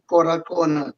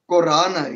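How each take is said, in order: First: The name is said as four syllables. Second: The name is said as three syllables. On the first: This is the original form, meaning children of the Korah. The speaker calls it right. "It's actually Korah Kona" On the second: This is the form that came from outside influence. The speaker calls it wrong. "with the influence of Afrikaans, people started calling us Korana"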